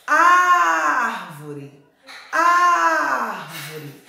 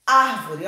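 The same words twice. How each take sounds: First: "Árvore" shouted with a very long, high first A; calling out the word. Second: Said in the usual way. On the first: Shown as a demonstration. Teacher calls "Árvore" to show the strong syllable, calling out. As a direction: call out "Árvore", holding the Á loud and long. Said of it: "A sílaba que mais se alongou foi o A".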